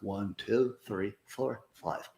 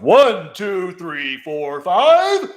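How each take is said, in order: First: The count is spoken weakly, with little projection. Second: The count is spoken loudly, with strong projection. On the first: The speaker calls it wrong. "Slouch like you normally would, and then count to five" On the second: The speaker calls it right. "it announces to everybody that you are here"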